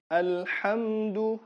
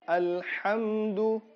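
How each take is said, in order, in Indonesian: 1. Bunyi m langsung mengalir ke d. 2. Bunyi m langsung mengalir ke d.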